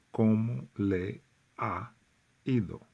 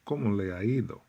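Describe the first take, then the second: First: "¿Cómo le ha ido?" spaced out word by word; teacher spelling out the phrase; slow and careful. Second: "¿Cómo le ha ido?" blended into one word; run together like one word. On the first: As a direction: say each word of "¿Cómo le ha ido?" apart, a little slowly. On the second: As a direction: glide "¿Cómo le ha ido?" through in one breath, no breaks. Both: Shown as a demonstration. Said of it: "it sounds like one word".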